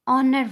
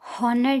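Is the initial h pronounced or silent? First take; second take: silent; pronounced. First: The word starts with a vowel, no h sound. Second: The word starts with an audible h sound. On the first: The speaker calls it right. "ऑनर word है" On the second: The speaker calls it wrong. "हॉनर नहीं है"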